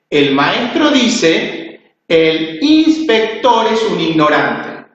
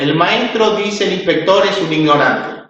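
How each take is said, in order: First: There is a pause after the word dice. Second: It is read straight through without pauses. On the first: "si yo coloco la coma eh, después del dice" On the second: "Voy a leer de corrido"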